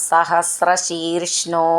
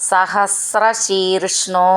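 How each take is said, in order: The two takes are said the same way.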